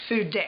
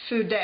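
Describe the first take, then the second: The two takes are said the same way.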